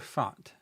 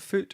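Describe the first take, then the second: First: The vowel sounds like the one in 'cat'. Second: The vowel sounds like the one in 'put'. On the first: "Is it foot or fat?" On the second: "Is it foot or fat?"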